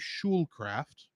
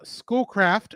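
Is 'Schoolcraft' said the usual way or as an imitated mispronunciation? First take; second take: imitated; usual. First: The name is said with an imitated mispronunciation. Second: The name is said with its usual pronunciation.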